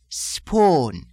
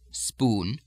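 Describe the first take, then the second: First: It is said with an Irish lilting two-stage oo vowel. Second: It is said with a plain American oo vowel.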